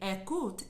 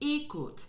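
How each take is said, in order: First: The first vowel is open. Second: The first vowel is closed. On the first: The speaker calls it wrong. "instead of it being" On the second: The speaker calls it right. "vowel close"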